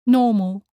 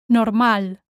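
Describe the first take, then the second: First: Normal as NAW-mul; English pronunciation. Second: Normal as nor-MAL; sounded r in Normal, stress on A; Spanish pronunciation. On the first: Teacher contrasts with Spanish, English NAW-mul for normal. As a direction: stress the first syllable of normal, English style. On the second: Teacher shows learners the Spanish word, nor-MAL for Normal. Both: Shown as a demonstration. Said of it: "same in English and in Spanish".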